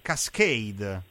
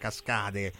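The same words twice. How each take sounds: First: The word is pronounced the English way. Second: The word is pronounced the Italian way. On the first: The speaker calls it right. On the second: The speaker calls it wrong.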